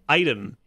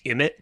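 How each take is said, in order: First: It is said as eye-tem. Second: It is said as im-it. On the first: The speaker calls it right. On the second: The speaker calls it wrong.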